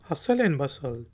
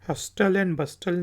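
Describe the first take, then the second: First: The t is silent in both words. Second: The t is sounded in both words. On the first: The speaker calls it right. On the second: The speaker calls it wrong.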